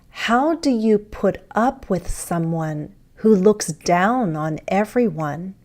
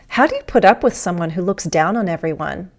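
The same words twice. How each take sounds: First: The sentence is spoken slowly with each word distinct. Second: The sentence is spoken quickly with words run together. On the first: "More carefully, more slowly" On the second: "Fast speech"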